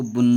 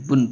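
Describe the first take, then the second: First: बुन with the final n held long; बुन as a long, humming "bunnn"; wrongly lengthened. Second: Said in the usual way. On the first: Shown as a demonstration. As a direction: drag out the nasal ending of बुन. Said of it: "इसको बुन नहीं पढ़ेंगे". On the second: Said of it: "यानी बुन पढ़ेंगे".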